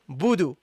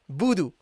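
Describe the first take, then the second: No difference in how they are said.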